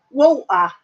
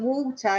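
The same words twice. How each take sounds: First: Loud "Walter" as waw'-uh, glottal stop for t; imitated dropped T. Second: "water" with a clear t, waw-ter; imitated wrong version. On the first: Dutch YouTuber teaching English speech, imitated glottal-stop pronunciation. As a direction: drop the t in "Walter", proudly demonstrating. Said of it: "That's how you say it in England". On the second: Dutch YouTuber quoting his old way, pronunciation with t. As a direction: say "water" with the t sounded. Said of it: "it's not water".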